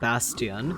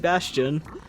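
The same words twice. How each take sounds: First: The word is said with Polish pronunciation. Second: The word is said with English pronunciation. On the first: The speaker calls it wrong. "with a Polish pronunciation" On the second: The speaker calls it right. "it's definitely Bastion"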